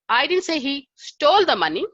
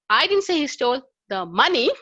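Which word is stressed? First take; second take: stole; money. First: The stress is on "stole". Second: The stress is on "money".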